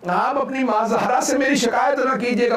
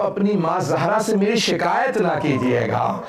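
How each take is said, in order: First: Higher, more urgent plea; second time, higher and pleading; raised pleading repeat. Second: Said in the usual way. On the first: Acted. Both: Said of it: "repeated as a plea".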